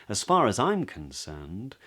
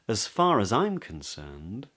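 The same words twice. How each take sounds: No difference in how they are said.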